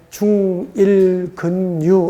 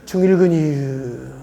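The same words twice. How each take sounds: First: It is said in a plain standard accent. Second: It is said in a Chungcheong dialect accent. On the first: "어쩐지 좀 딱딱하고 재미가 없죠" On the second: "충청도 버전으로 해볼게요"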